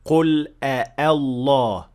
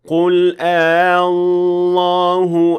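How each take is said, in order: First: Both hamzas are fully pronounced. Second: The second hamza is only partially pronounced. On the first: The speaker calls it wrong. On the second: The speaker calls it right.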